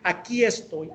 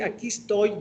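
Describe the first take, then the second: First: Every sound is fully pronounced, though said quickly. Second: Some sounds are dropped and the phrase is clipped. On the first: Careful speech for a public address. The speaker calls it right. "si lo decimos de una forma rápida, tiene que ser" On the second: Casual everyday speech. The speaker calls it wrong. "ya abreviamos algunas, algunos fonemas"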